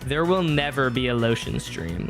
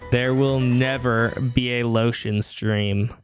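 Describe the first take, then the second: First: The voice is recorded at a normal distance. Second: The voice is recorded very close, sounding deeper.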